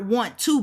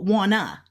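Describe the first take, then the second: First: Both words are said separately and fully. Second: The words blend quickly into one reduced form. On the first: "not want to" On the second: "we say it so fast, and we flip ... but wanna"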